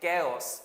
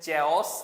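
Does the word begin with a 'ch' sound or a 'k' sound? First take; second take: k; ch. First: The word begins with a k sound. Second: The word begins with a ch sound. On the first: The speaker calls it right. "এটার উচ্চারণ হচ্ছে কেয়স" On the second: The speaker calls it wrong. "আমরা অনেকে বলি যে চেয়স, এটা আসলে চেয়স না"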